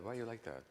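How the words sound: It sounds gently curious and open.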